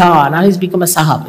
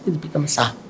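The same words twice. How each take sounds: First: 1 mocking jibe. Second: 1 muttered aside. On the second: Retold or imitated. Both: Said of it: "they say".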